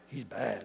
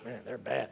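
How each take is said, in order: First: It sounds admiring, meaning good. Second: It sounds disapproving, meaning bad.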